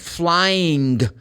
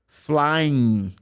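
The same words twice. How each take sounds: First: The ending is said with a final g sound. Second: The ending is said with a final n sound. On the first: "the ing should be pronounced g" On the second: "finish the pronunciation of the ing with the n"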